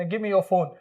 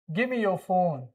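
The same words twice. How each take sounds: First: Said in the usual way. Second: "give me your phone" with give me run into gimme; casual linked "give me your phone", as gimme yo phone; reduced pronunciation. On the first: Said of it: "पहले बोलते थे ना". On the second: Shown as a demonstration. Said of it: "क्या pronounce करेंगे इसको".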